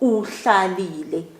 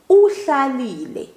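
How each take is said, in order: First: The first vowel u is short. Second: The first vowel u is slightly drawn out. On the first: The listener stayed or sat. "I'm talking about you" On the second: Someone else stayed or sat. "I sort of pull it, but not too long. So just a slight pull"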